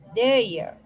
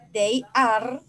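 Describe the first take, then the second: First: The words are merged into one short syllable. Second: Both words are said fully and separately. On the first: "forma corta" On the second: "forma larga"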